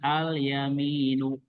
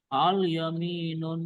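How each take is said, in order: First: The word ends without a final n sound. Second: The word ends with a final n sound. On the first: The speaker calls it right. "Ketika diawali al jadinya al yaminu" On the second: The speaker calls it wrong. "Nggak boleh gini"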